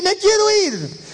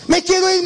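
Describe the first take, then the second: First: Demon fading. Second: High, pleading; demon begging. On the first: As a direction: let the plea die away. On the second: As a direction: plead to get out. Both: Retold or imitated. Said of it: "El diablo quería escaparse".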